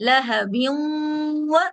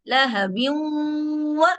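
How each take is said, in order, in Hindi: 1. न नासिक्य w आवाज़ में मिल जाता है। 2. न नासिक्य w आवाज़ में मिल जाता है।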